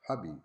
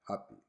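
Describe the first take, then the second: First: The word starts with a b sound. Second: The word starts with a p sound. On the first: The speaker calls it wrong. "Arabic speakers say habi" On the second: The speaker calls it right. "instead of saying happy"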